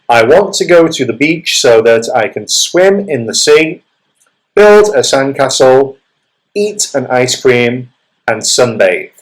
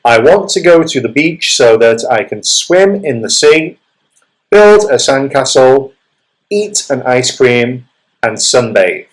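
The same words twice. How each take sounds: First: There is a short pause after each activity. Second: There is a short pause after each activity.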